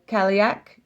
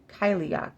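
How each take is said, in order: First: "Kaliak" opening with KAL as in California; loud, questioning "Kaliak", KAL-ee-ak; mistaken pronunciation. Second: "Kyliak" opening like KY; "Kyliak" with a long I first; corrected pronunciation. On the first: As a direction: say "Kaliak" with short A first. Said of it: "not Kaliak". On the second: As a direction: say "Kyliak" as KY-lee-ock. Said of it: "K Y, Kyliak". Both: Shown as a demonstration.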